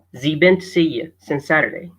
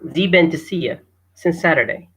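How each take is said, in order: First: Has he blends into one short syllable. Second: Has he blends into one short syllable.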